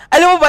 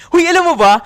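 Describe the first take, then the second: First: Loud, high repeated alam mo ba; excited call-out. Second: Loud, high excited hey; excited call-out. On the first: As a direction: push it out even louder. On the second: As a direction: grab the viewers with a loud shout. Excited opener to viewers. (excited na sigaw) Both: Real, not acted.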